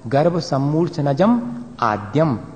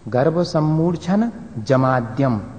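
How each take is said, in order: First: The break falls after the syllable 'jam'. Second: The break falls before the syllable 'jam'. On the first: The speaker calls it right. "Actually original ये है" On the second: The speaker calls it wrong. "हमेशा ऐसे ही सीखा है पहले, लेकिन वो गलत है"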